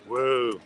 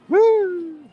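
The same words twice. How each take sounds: First: It is said in a grumpy way. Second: It is said in a happy, smiling way.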